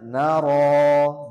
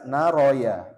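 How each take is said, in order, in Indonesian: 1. Vokal terakhir dibaca panjang, tidak ada suku kata tambahan. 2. Ditambahkan suku kata ya di akhir. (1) "Bacanya naro dua harokat" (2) "ini pasti banyak yang baca naroya"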